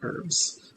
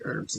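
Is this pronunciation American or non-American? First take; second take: non-American; American. First: It is said in a non-American accent. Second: It is said in an American accent. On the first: "instead of herbs" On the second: "I am American. Can you tell? Because I say herbs"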